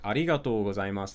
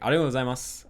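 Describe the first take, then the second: First: Every sound of the phrase is said in full. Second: The phrase is said quickly, with sounds dropped.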